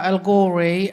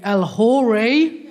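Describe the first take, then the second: First: "El Ghori" with no H sound; silent H. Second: "El Hori" opening on a sounded H; H pronounced. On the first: Shown as a demonstration. Comic giving her surname, "El Ghori" with a silent H. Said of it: "It's a silent H". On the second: Retold or imitated. Comic imitating people misreading her surname, "El Hori" with audible H. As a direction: say "El Hori" with an H replacing the G. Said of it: "a lot of people pronounce it".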